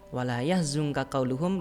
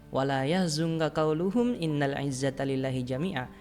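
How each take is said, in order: First: The reading stops after qauluhum. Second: The reading continues past qauluhum without stopping.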